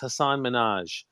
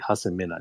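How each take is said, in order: First: The name is said with an anglicized pronunciation. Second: The name is said with its native pronunciation. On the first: The speaker wanted to sound more Western. The speaker calls it wrong. "mispronouncing both my first and my last name just because I wanted to sound more westernized" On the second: The speaker owns the real name. The speaker calls it right. "because that's my name"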